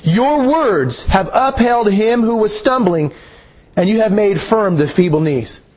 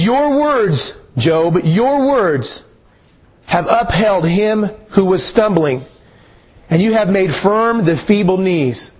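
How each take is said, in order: First: Slow reread with a lifted start; scripture reread. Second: Slow, measured scripture reading. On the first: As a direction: read it once more, slowly, stressing "Your". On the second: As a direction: read the verse slowly, letting each phrase land. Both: Shown as a demonstration. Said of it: "Look at that one more time".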